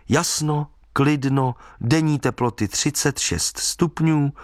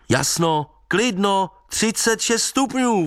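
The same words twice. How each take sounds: First: Measured forecast read-out, item by item; deliberate newspaper read-out; reading forecast aloud. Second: High-pitched call into the distance; calling after him. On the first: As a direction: read out the forecast slowly, pointedly. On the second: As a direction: call it out high, drawing out the end. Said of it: "volal jsem za ním". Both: A narrator's reading.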